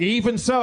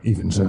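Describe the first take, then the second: First: Tag-less insistence. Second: Deep, drawn-in imitation of a clerk; low, into the mic. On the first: Retold or imitated. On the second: Comic imitating the clerk who leaned in, very low. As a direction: drop right down, close on the microphone. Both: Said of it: "he leaned in and got low".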